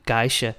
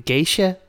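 First: "geisha" said GUY-sha, in a level voice; "geisha" with an eye vowel in the first syllable; Danish-style pronunciation. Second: "Geisha" tried as GAY-sha, higher and rising; high questioning "Geisha", first syllable like gay; Japanese-style pronunciation. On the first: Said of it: "I'm saying it wrong". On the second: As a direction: try "Geisha" with an ay vowel, lifted in pitch. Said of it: "I don't know if I'm mistaken". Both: Shown as a demonstration.

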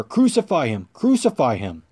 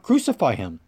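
First: Emphatic repeated cry, each falling sharply; louder outcry. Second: Mild narrated outcry; restrained cry. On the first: Crowd insists to Pilate on crucifixion, in a firmer outcry. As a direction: read the crowd's cry with added force. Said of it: "They cried out all the louder". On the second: Crowd answers Pilate about Jesus, in a restrained cry. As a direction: read the crowd's cry with slight force, falling away. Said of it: "They all cried out". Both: A narrator's reading.

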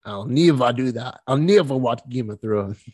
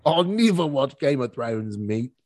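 First: Slow, lightly put-on Australian accent; a hint of fake Australian accent. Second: Slow, broad mock Australian accent; hammed-up Australian accent. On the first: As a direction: try a mild mock Aussie accent. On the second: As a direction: ham up the Aussie vowels, drawn out. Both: Shown as a demonstration. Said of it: "I like Australian accents a lot".

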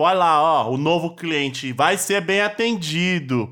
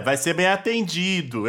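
First: Slow, sly sarcastic tone, stretching bem atendido; sarcastic intonation. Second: Slow, knowing sarcastic vai ser bem atendido; a light snide hint, drawn out. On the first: Shown as a demonstration. Podcaster acting out the woman's sly sarcastic tone. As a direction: say it like a snide hint that nobody will be served. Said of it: "Será que ela não tá fazendo uma entonação de tipo". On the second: Retold or imitated. Cohost retelling her line with light sarcasm. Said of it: "E ela tá lá, ó, é".

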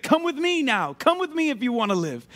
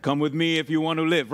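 First: High-pitched rescuer's call, settling back down; hero's rallying plea in own voice; urgent movie hero. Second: Low, badly faked action-hero voice; deep, half-hearted action-star impression; Arnold Schwarzenegger. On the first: Acted. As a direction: call someone out of danger, starting high. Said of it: "He was like". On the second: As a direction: do a bad movie tough guy, pitched low. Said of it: "That was a horrible Arnold, Arnold, uh, Schwarzenegger impersonation".

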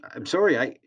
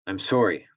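First: High, rising, shaken "I'm sorry"; boy apologising in panic after being slapped; frightened apology. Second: Calmer. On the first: A narrator's reading. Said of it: "I stuttered". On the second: Acted. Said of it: "in a more normal tone".

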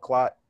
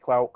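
First: "clot" to rhyme with "hot"; clot pronunciation. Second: "clout" with a full ow vowel; clout pronunciation. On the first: Podcaster guessing young people's slang, "clot" with ah. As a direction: say "clot" with an open ah vowel. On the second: Podcaster trying how young people say it, "clout" with ow. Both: Shown as a demonstration. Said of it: "however the young people pronounce it".

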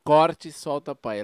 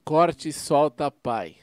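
First: Corte Solta Pai repeated a bit slower. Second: Corte Solta Pai said slowly; slow, spelled out. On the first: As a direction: repeat the channel name slowly. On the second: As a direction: say the channel name slowly. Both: Shown as a demonstration. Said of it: "Qual que é o nome".

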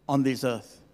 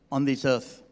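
The two takes are said the same way.

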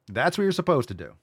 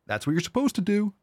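First: Firm fall on what in That's what you're supposed to do; stress on what. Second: High mock-preachy That's what you're supposed to do; rising mock emphasis. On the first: Lecturing viewers firmly: what stressed. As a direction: land the word what squarely. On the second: To migrants, mockingly preachy: That's what you're supposed to do. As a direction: lecture it with a sarcastic lift. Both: Shown as a demonstration. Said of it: "repeated line".

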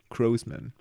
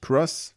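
First: Grossman said slowly, starting with a G sound; Grossman, G not K, English style; Grossman with a soft G. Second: Cross with a hard English C and short o; Cross pronounced like the German Kreuz. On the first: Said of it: "sondern Grossman". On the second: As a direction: say Cross as in the cross, a K sound. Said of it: "Nicht Cross wie Kreuz". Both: Shown as a demonstration.

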